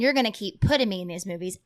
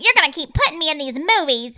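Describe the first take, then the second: First: It is said in the speaker's ordinary voice. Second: It is said in a put-on character voice.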